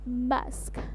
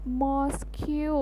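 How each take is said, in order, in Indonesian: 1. Huruf akhirnya tidak diucapkan, berakhir dengan k. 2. Huruf akhirnya diucapkan sesuai ejaannya. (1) "aku jadi ganti ngomongnya jadi mosque" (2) "Aku malah nyebutinnya dengan mosque. Bener-bener totally wrong banget"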